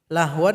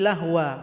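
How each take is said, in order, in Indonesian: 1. Kata ini berakhir dengan bunyi n. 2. Kata ini berakhir dengan vokal yang dipanjangkan.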